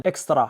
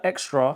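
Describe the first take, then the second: First: "extra" in three syllables, EKS-ta-rah; Arabic-style pronunciation. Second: "extra" in two syllables, EK-struh; English pronunciation. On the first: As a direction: say "extra" the Arabic way, open final ah. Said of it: "no word for extra in Arabic". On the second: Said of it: "here it says tahina extra". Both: Shown as a demonstration.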